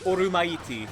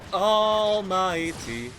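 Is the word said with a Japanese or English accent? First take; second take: Japanese; English. First: The word is said with a Japanese accent. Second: The word is said with an English accent. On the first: "not like orumaiti" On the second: "but like almighty"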